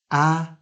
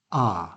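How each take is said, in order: First: A as the short a of cat; short front vowel. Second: A as a long AH; long back vowel. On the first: Teacher isolating the two sounds, short front vowel. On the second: Teacher isolating the two sounds, long back vowel. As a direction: say a like the ah in arm, dropping low. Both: Shown as a demonstration. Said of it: "two different ways to pronounce this word".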